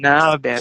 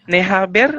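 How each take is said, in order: First: It is run together into one short word. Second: It is said as two separate full words. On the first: "bukan ne haber tapi naber"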